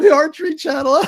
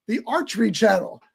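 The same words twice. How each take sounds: First: Loud, high, laughing disbelief. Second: Said in the usual way. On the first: Retold or imitated. Moviegoer laughing at a silly channel, loud incredulous laughter. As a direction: crow it through laughter. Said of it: "I remember laughing, going". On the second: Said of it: "they look in the".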